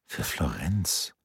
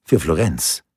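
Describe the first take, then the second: First: Leise, langsam, fragend steigend auf "Florenz"; "Für Florenz?" leise und langsam, zweifelnd angehoben; ungläubiges Nachfragen. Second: Said in the usual way. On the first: Acted. Leonardo wiederholt zweifelnd. (leises, langsames ungläubiges Nachfragen)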